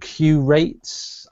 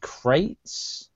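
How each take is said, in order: First: It begins with the letter name Q. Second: It begins with a plain K sound. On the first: "I have always read it as Q-Rates" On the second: "I saw it as Crates"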